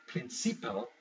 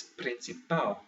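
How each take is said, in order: First: PRINCIPAL as prin-CI-pal, middle syllable stressed; wrong-syllable stress. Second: PRINCIPAL slowly, landing on the final PAL; last-syllable stress. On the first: Teacher showing what it's not, second-to-last syllable stressed. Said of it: "So it's not". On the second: Teacher correcting the word, slow with last-syllable stress. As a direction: say "principal" as prin-ci-PAL, drawn out. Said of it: "the last syllable". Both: Shown as a demonstration.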